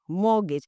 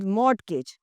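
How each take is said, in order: First: The T sound is silent. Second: The T sound is pronounced. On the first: The speaker calls it right. "The T is the T is dropped" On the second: The speaker calls it wrong. "You will never call it mortgage"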